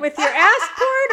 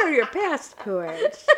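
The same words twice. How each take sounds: First: Passport said as ass port, dropping the p; pronunciation. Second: "passport" with a clear p; pronunciation. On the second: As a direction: say "passport" crisply, p at the front. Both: Shown as a demonstration.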